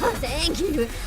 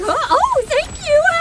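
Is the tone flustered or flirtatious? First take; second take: flirtatious; flustered. First: It sounds flirtatious and seductive. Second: It sounds flustered and shocked.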